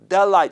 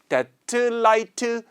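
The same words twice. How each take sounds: First: The words are joined and the t is dropped. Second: The words are separated with a break between them. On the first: The speaker calls it right. "이렇게 붙게 되는데 그 과정에서 묶음 법칙이 적용이 돼서 t, t가 발음이 안 돼요" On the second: The speaker calls it wrong. "이렇게 끊지 않고"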